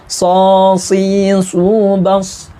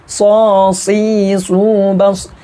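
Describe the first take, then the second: No difference in how they are said.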